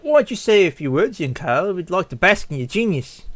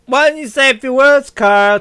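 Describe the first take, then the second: First: Lightly voiced, polite coaxing; flattering guest. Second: High, loud mocking request; taunting. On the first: Gala guest asking young Carl to speak, polite flattery. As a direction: coax the child with mild admiration. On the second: Guests taunting Carl to speak, mocking. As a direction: goad him in a raised voice.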